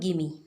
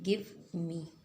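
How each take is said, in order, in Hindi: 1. शब्द आपस में मिल जाते हैं, v छूट जाता है। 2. दोनों शब्द पूरे बोले जाते हैं, v के साथ।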